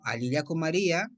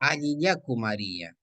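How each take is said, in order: First: "Alillaco María" asked with a questioning lift; question tune. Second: "Alillaku María" spoken slowly as a model; slow pronunciation demo. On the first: Teacher demonstrates a greeting as a question, questioning tune. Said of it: "es como una pregunta". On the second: Teacher models the greeting to practise, slowly. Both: Shown as a demonstration.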